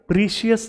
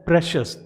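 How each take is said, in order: First: It is said as 'preeshius' with a long vowel. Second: It is said as 'preshus' with a short vowel. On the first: The speaker calls it wrong. "इसे प्रीशियस नहीं बोला जाता" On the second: The speaker calls it right. "इसे बोला जाता है प्रेशस"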